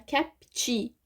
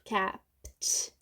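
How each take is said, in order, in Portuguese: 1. Um som de vogal extra vem depois do p. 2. O p se une ao t sem vogal. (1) "não é kept" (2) "é junto, kept. Porque o som do p é som de consoante, não tem nenhum som de vogal"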